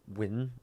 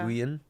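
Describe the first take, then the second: First: The name sounds like the word 'win'. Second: The name does not sound like 'win'. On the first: The speaker calls it right. "it's more like Win" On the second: The speaker calls it wrong. "Nguyen is not fucking correct"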